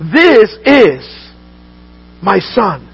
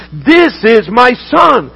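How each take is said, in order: First: Said in the usual way. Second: Slow proclamation. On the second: Acted. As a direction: proclaim it like a voice from heaven. Preacher proclaims the Father's words.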